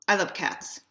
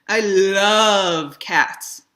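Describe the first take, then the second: First: "I" leaned on, falling off through "love cats"; stress on I. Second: "love" stretched very slow and much louder; stress on LOVE. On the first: Demonstrating emphasis to bloggers, stress on "I". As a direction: lean into the word "I" and let it drop. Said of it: "If I say something like". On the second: Showing bloggers how emphasis shifts meaning, big stress on "love". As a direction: draw out and punch the word "love". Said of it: "that's a lot different than saying". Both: Shown as a demonstration.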